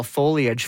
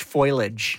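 First: Said in the usual way. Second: "foliage" said as FOY-lij; slow, deliberate foy-lidge for "foliage"; mispronounced foliage. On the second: Shown as a demonstration. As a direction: turn "foliage" into two syllables, foy-lidge. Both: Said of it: "my husband used to call".

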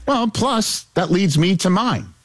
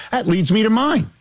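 First: Playfully raised pitch; higher register. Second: High-pitched mock segue; higher register. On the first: Pretend. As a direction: start high, easing down slightly. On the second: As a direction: redo it pitched right up. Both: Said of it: "still gotta go higher register".

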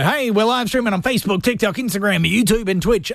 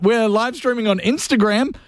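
First: Radio voice. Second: Said in the usual way. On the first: Shown as a demonstration. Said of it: "do my little radio voice". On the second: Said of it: "but right now".

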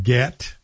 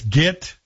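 First: Said in the usual way. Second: "get" said like "git"; local form of get. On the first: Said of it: "not get". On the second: Shown as a demonstration. Host corrects the Valley word, "get" said as "git". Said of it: "But it's get, not get".

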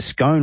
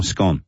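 First: First Scone said "skohn", rhyming with bone; long-vowel pronunciation. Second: Second Scone said "skon", rhyming with gone; short-vowel pronunciation. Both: Shown as a demonstration. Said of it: "Is it Scone or Scone".

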